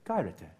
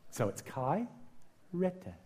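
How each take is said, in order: First: "kairete" said as one smooth word, KAI-re-te, falling at the end; whole word. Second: Kairete split into "kai" and "rete" with a pause between; syllable by syllable. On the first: Pastor putting the Greek word back together, quietly. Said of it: "So it's kai, rete, kairete". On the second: Pastor breaking the Greek word into parts for the congregation. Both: Shown as a demonstration.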